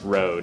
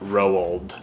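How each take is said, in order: First: The name sounds like the word road. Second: The name does not sound like road. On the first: The speaker calls it right. "my pronunciation of it as road" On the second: The speaker calls it wrong. "not Roald"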